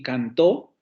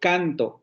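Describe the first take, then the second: First: The stress is on the last syllable. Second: The stress is on the first syllable. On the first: "la diferencia radica en el acento" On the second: "la diferencia radica en el acento"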